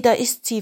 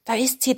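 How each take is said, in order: First: Lightly whispered, stress on "da"; mock hushed "da ist sie", leaning on "da"; excited whisper. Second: Lightly whispered, stress on "sie" with a rise; mock hushed "Da ist sie", lifting "sie"; excited whisper. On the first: The clothes repeating it to each other, hushed and pressing on "da". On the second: The clothes spotting their owner, hushed excitement with "sie" rising. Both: A narrator's reading. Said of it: "flüsterten die Kleidungsstücke".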